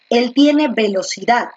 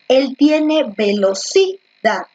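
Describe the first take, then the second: First: The stress is on the last syllable, dad. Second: The stress is on the third syllable, ci. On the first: The speaker calls it right. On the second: The speaker calls it wrong.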